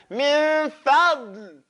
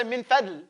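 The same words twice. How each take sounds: First: Very slow "min fadl", n held long; chanted "min fadl", each sound stretched; correct dad. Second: Quick, lower "min fadl" with a plain d; "min fadl" with no hold on n or d; wrong dal. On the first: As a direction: press and hold the heavy d in "min fadl". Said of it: "it's min fadl". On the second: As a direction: toss off "min fadl" short, d like English. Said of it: "Don't say min fadl". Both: Shown as a demonstration.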